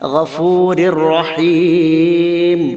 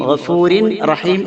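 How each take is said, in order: First: The n sound merges fully into the r. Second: The n sound is pronounced before the r. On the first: This is how it is actually read. The speaker calls it right. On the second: This is the written form, not how it is read. The speaker calls it wrong.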